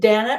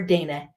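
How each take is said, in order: First: The first vowel sounds like 'ah'. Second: The first vowel sounds like a long 'ay'. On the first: "an A H" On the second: "a A long vowel"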